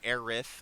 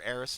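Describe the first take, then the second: First: The name ends with a lisped th sound. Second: The name ends with a plain s sound. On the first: The speaker calls it wrong. "not Aerith. I don't have a lisp" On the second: The speaker calls it right. "I'm gonna call her Eris"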